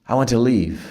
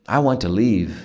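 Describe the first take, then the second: The two takes are said the same way.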